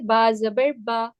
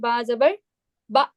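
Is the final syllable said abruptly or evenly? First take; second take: evenly; abruptly. First: The final syllable is said smoothly and moderately. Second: The final syllable is cut off with a jerk. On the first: The speaker calls it right. "आपने दरमियाना रखना है" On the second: The speaker calls it wrong. "झटका देना क्या होता है जैसे"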